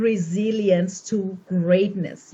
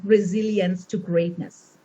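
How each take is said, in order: First: Slow, measured dictation; slow emphatic repeat. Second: Said in the usual way. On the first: Real, not acted. Speaker asking the audience to write this down, slow emphatic repeat. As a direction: spell it out slowly for note-takers. Repeats the title for note-takers.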